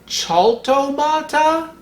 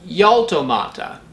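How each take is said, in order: First: It begins with a rough guttural throat sound. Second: It begins with a gliding y sound. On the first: "more guttural like the German C H" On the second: "with an English Y"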